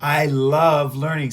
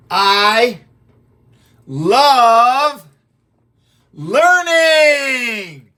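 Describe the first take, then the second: First: Said in the usual way. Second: Chanted, each word stretched, much louder and higher; loud drawn-out chant. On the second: Shown as a demonstration. Teacher leads the class in a loud chant. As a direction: lead the class in a big slow chant. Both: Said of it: "Say it with me".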